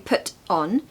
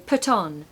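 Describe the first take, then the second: First: The two words are said separately. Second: The two words are blended together. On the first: The speaker calls it wrong. "You're not going to say put on" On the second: The speaker calls it right. "you're going to kind of blend them"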